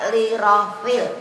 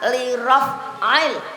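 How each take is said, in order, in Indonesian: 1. Suku kata rafil menyatu tanpa hentakan. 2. Hentakan tenggorokan memisahkan suku kata raf'il. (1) "bukan li rafil" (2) "lafal niat itu nawaitul wudhu'a li raf'il"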